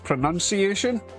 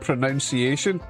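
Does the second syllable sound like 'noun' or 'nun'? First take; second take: nun; noun. First: The second syllable rhymes with 'nun'. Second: The second syllable rhymes with 'noun'. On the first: This is the current, accepted way. "but suddenly it's pronunciation" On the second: This is the older, familiar way. "When we grew up, it was pronounce it and pronunciation"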